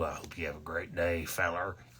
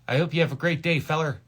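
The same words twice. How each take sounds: First: It is said in a put-on character voice. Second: It is said in his ordinary natural voice.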